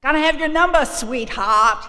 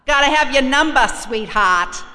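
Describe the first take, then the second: First: Loud, high Boston tough-guy voice, repeated; Boston accent. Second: Loud, high Boston tough-guy voice; Boston accent. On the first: AA volunteer insisting on her number, loud Boston accent. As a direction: punch out the brash Boston demand. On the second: AA volunteer demanding her number, loud Boston accent. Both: Retold or imitated. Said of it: "That's how they talk up there".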